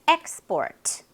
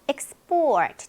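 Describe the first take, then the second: First: The stress is on the first syllable. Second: The stress is on the second syllable. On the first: It is a noun meaning exports. "명사로 수출" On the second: It is a verb meaning to export. "뒤에 강세가 있으면요"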